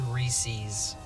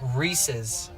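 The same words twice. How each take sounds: First: It does not sound like the name Reese. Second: It sounds like the name Reese plus 's'. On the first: The speaker calls it wrong. "I always said Reese's" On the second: The speaker calls it right. "it's Reese's, like Reese, a person"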